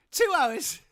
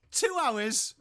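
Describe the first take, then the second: First: Much higher and louder, hammed-up outrage; bigger, shriller-pitched repeat of the tease; exaggerated mock yell. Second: Higher, louder mock indignation; mock outrage, first take; teasing. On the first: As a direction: squeal it back at the latecomer. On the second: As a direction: rib the latecomer with a raised voice. Teasing viewer for lateness.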